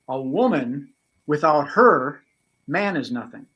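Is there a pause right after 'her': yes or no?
yes. There is a pause after 'her' before 'man'.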